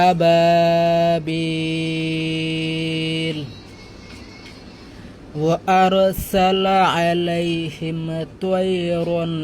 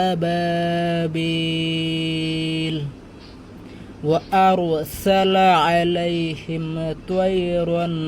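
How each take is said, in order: The two takes are said the same way.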